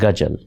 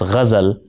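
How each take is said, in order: First: It begins with hard g and has a j. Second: It begins with throaty gh and has a z. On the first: The speaker calls it wrong. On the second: The speaker calls it right.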